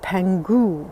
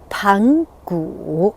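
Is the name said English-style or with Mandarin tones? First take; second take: English-style; Mandarin tones. First: The name is said with an English-style pronunciation. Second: The name is said with Mandarin tones. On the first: The speaker calls it wrong. "They may pronounce it Pangu" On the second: The speaker calls it right. "this is the correct pronunciation"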